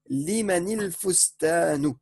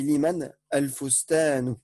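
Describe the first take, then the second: First: The two words are linked with an i sound. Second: The two words are separated by a pause. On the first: "Quand tu veux faire la liaison" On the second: "tu as fait une pause entre les deux mots"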